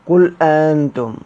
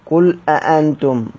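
First: The second glottal stop is softened. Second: The second glottal stop is fully pronounced. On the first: "وبعدم السكت مع تحقيق الأولى وتسهيل الثانية" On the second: "وبعدم السكت أيضا مع تحقيقهما"

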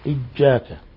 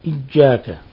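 First: The middle consonant is a j sound. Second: The middle consonant is a j sound.

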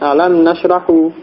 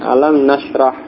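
First: The last word ends with a short u vowel. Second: The last word ends with no final vowel. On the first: The speaker calls it wrong. "khata'un, keliru, salah" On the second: The speaker calls it right. "dibaca sukun"

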